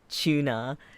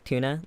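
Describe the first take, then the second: First: It is said in a British accent. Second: It is said in a non-British accent. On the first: "I've heard British people say" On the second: "instead of, like"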